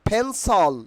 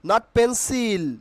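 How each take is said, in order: First: The second syllable has a reduced vowel. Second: The second syllable has a full i vowel. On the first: The speaker calls it right. "Correct pronunciation will be ফেন্সল" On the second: The speaker calls it wrong.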